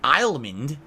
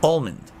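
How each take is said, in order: First: "almond" said "ail-mund", with a long I sound at the start; wrong pronunciation. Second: "Almond" said "all-mund", starting like the word "all"; right pronunciation. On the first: Streamer showing chat the wrong way to say "almond". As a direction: say "almond" as if it began with the word "I". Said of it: "you can't say I". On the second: Streamer settling the chat argument, careful pronunciation. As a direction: open "Almond" with "all", then a light "mund". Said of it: "Like the word all, A L L, and then mund". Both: Shown as a demonstration.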